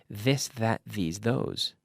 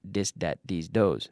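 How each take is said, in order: First: The words begin with a voiced th sound. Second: The first words begin with a d sound. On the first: The speaker calls it right. "you have to stick your tongue out" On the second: The speaker calls it wrong. "Not dis, dat"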